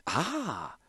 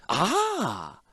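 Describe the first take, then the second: First: High, much softer wondering ah; quiet first ah from the clockmaker. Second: High, full-voiced emphatic ah; emphatic repeated ah from the clockmaker. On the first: Acted. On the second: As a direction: repeat it with more weight for show. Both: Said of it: "then repeated for emphasis".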